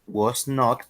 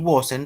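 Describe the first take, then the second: First: It is said as two full words. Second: It is said as one contracted word. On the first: It is more formal. "es la forma larga" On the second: It is informal. "sería la forma contraída"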